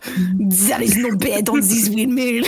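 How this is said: It is read in a put-on French accent. "I'll do it just for this line so you can hear you what it is"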